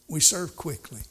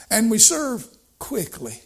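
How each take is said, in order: First: Said in the usual way. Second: Higher and louder, stress on serve; rising to the point; emphatic. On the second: Shown as a demonstration. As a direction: punch "serve quickly" up high. Preacher stresses serving quickly.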